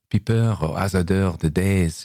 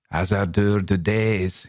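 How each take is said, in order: First: Lightly sighed French verse; sighing. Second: Put-on slow French verse in an outlandish accent. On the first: Corporal quotes Villon back to the narrator, sighing. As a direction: recite the line with a touch of a sigh. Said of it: "he said, sighing". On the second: Corporal quotes Villon in an outlandish accent. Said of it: "he said in an outlandish accent". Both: A narrator's reading.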